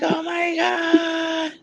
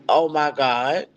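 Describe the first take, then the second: First: High, slow, drawn-out shriek of joy; excited squeal. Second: Said in the usual way. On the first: Retold or imitated. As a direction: stretch it out like you've spotted an old friend. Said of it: "She was like". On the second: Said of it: "And I'm just like".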